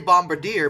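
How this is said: It is pronounced with an English-style pronunciation. "that's the way we say it in English"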